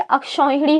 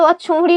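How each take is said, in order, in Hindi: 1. 'aksh' के बाद का स्वर 'au' है। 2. 'aksh' के बाद का स्वर 'o' है। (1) "अक्षौहिणी होता है" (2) "अक्षोहिणी ना होकर के"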